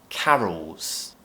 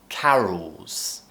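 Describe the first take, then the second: Both takes have the same delivery.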